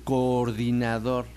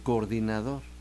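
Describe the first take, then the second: First: Both vowels are pronounced fully and separately. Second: The two vowels merge into one short vowel. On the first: "como tampoco dicen ¿quién es el coordinador?" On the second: "pues decimos el coordinador"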